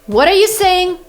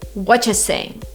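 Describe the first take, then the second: First: Every word of what are you is said fully. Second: What are you is run together as whatcha.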